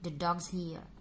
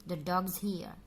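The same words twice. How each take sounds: First: The word is is reduced to a buzz. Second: The same.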